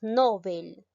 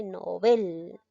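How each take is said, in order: First: "novel" said as NÓvel, with the stress on the first syllable; "novel" with the mistaken stress on the first syllable; common wrong stress. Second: "novel" said as noVEL, stress on the last syllable, slow and deliberate; "novel" said slowly with the correct final stress. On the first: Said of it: "Muchos decimos novel". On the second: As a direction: slowly give the right form of "novel", leaning on VEL. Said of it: "En sí se dice novel". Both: Shown as a demonstration.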